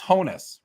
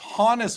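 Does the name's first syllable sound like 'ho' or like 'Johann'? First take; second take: ho; Johann. First: The first syllable sounds like the word 'ho'. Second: The first syllable sounds like the start of 'Johann'. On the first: The speaker calls it wrong. "like ho" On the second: The speaker calls it right. "It's like Johann"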